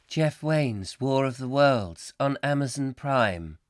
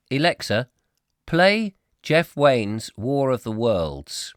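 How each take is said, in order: First: Lightly mimicked, slow assistant voice; smart speaker reply. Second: Slow, loud pretend command. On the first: Alexa confirms the music request, in a lightly imitated measured voice. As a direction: read it back slowly, like an automated assistant. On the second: Host orders Alexa to play music, slowly and loudly. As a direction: address a machine slowly and firmly. Mock command to smart speaker.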